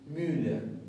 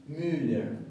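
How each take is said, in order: Both takes have the same delivery.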